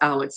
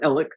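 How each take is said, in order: First: The name ends with a ks sound. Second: The name ends with a plain k sound. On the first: This is the name's actual form. "when it's really it's Alex" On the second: This is how locals say the name. "the way that people in South Carolina pronounce Alec with Alex with their accents"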